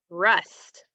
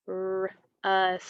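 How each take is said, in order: First: Said in the usual way. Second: RUST split as rrr... usss-t; sounded out. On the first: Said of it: "It's gonna be". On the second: Shown as a demonstration. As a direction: stretch RUST slowly, pausing after the r. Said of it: "what is that new word going to be".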